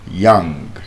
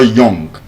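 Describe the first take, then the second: First: The vowel sounds like 'uh'. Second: The vowel sounds like 'oh'. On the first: The speaker calls it right. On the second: The speaker calls it wrong.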